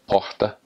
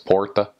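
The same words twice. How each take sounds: First: It is said in a Northeastern Brazilian accent. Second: It is said in a São Paulo accent. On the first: "in the Northeast, it's like porta" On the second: "if you go to São Paulo, it's porta"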